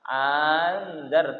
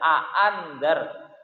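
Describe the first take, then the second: First: The second glottal stop becomes a long vowel. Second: Both glottal stops are pronounced separately. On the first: "mengganti hamzah kedua dengan alif... dipanjangkan" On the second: "membaca kedua hamzahnya dibaca a'andar"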